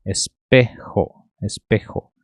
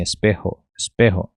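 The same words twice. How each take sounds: First: "espejo" drawn out, J scraped at the back of the mouth. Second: "espejo" with the J as a light h; easier J variant. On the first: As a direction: stretch "espejo" slowly with a throaty J. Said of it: "trazer esse J como re". ("espejo" pausado, com J raspado) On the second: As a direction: say "espejo" quickly as es-PEH-ho. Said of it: "dá pra pronunciar assim". ("espejo" com J leve, aspirado) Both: Shown as a demonstration.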